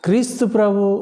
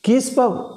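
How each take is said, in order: First: Every syllable of the name is clearly pronounced. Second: Sounds are dropped, squeezing it into two syllables. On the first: The speaker calls it right. "సరిగ్గా ఉచ్చరించడం" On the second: The speaker calls it wrong. "ఎలా పలుకుతారంటే కీస్పబ్ కీస్పబ్ అంటారు"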